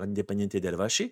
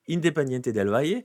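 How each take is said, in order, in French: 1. Elle se prononce avec un accent espagnol argentin. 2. Elle se prononce sans accent espagnol argentin. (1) "Si vous avez un Argentin qui vous parle, il va vous dire" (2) "On va le prononcer pas à l'Argentine"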